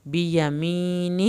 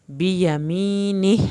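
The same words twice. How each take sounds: First: "بیمینہ" slowly with the mee stretched; slow recitation; long mee. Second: "بیمینہ" slowly with the final ha audible; slow recitation; final ha sounded. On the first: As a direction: draw out the ya after meem in "بیمینہ". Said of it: "یا ساکن جو ہے اس کو کھینچیں گے". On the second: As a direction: breathe out the ha at the end of "بیمینہ". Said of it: "آخر میں ہا کی آواز نکلے گی". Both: Shown as a demonstration.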